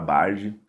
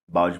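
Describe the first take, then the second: First: The word is said with a retroflex R sound. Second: The word is said with an L sound.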